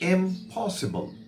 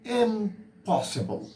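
First: The stress is on the second syllable. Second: The stress is on the first syllable.

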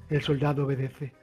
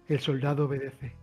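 No difference in how they are said.

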